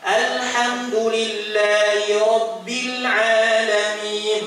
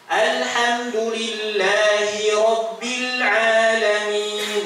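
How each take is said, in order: First: The h sound becomes a glottal catch. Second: The h sound is clearly breathed out. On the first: The speaker calls it wrong. "Mana yang keliru? Yang kedua. Kenapa? Haknya" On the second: The speaker calls it right.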